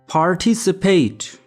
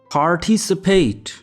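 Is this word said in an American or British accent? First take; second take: American; American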